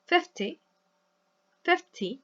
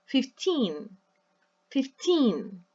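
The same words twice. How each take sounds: First: "fifty" with a clipped, short "ty"; short final syllable. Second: Put-on "fifteen" with a long, stressed "teen". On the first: Teacher contrasts fifty, short final syllable. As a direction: stress FIF, cut the "ty" off short. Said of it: "very short at the end". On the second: Teacher contrasts fifteen, stress on TEEN. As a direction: stretch and lean on TEEN in "fifteen". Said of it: "the stress is on the second syllable". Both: Shown as a demonstration.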